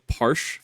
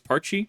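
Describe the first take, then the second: First: The name is said with a French-style pronunciation. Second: The name is said with a plain English pronunciation. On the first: The speaker calls it wrong. "I was thinking it was some weird French pronunciation" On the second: The speaker calls it right. "I now stand corrected"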